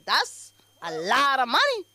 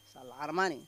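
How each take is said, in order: First: Said in the usual way. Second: Much lower and softer muttered repeat; muttered aside. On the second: Acted. Aside to the audience about the alimony, low mutter. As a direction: drop it under your breath.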